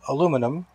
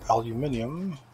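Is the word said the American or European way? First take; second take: American; European. First: It is said the American way, four syllables. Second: It is said the European way, five syllables.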